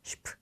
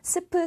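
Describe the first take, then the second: First: It begins with an 'sh' sound. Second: It begins with a plain 's' sound. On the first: The speaker calls it right. "슈트, 슈프 이렇게 발음하시면 되겠습니다" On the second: The speaker calls it wrong. "스프, 스트라고 발음되지 않고"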